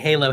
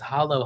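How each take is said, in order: First: The word is said like 'halo', with a long A. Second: The word is said like 'hollow', with a short O. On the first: The speaker calls it wrong. "I was calling it Halo at first" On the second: The speaker calls it right. "no, it's hollow"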